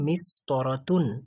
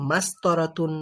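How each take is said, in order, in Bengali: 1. প্রথম স্বরধ্বনিটি i ধ্বনি। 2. প্রথম স্বরধ্বনিটি a ধ্বনি। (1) "আমাদের এটাকে মিস্তরাতুনই বলা বলতে হবে।" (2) "এরকম কিছু বলা যাবে না।"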